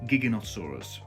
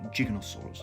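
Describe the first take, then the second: First: The first syllable is a hard 'gig'. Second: The first syllable is not a hard 'gig'. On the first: The speaker calls it right. "it's gig, gig" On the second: The speaker calls it wrong. "I've just realised I'm pronouncing it Giganotosaurus. It's not"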